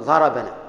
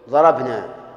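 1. بعد الباء فتحة قصيرة. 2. الباء تليها النون مباشرة، ولا توجد حركة بينهما. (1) "تريد أن تكون ناه مفعولا به" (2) "تريد أن تكون ناه فاعلا"

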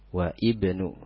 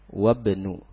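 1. Vokal 'i' dibunyikan sebelum 'bnu'. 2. Kedua kata tersambung langsung tanpa vokal 'i'. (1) "jangan dibaca wa ibnu ... itu salah" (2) "wabnu hamzahnya tidak dibaca tapi tetap ditulis"

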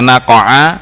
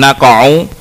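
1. Kata itu berakhir dengan vokal 'a'. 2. Kata itu berakhir dengan vokal 'u'. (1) "tidak dibaca naqa'a" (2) "tapi naqa'u, birraf'i alal isti'naf"

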